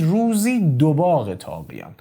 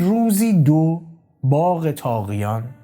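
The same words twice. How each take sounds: First: The break comes right after 'ruzi'. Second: The break comes after 'ruzi do'.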